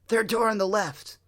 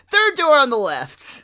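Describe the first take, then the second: First: It is said at normal volume. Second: It is yelled loudly.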